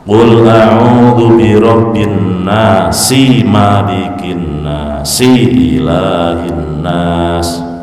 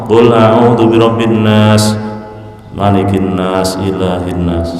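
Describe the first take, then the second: First: Final vowels of each verse are pronounced when joined. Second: Final vowels of each verse are cut off when joined. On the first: The speaker calls it right. "harokat akhirnya ayat pertama harus dibaca" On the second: The speaker calls it wrong. "ora kena ... Salah"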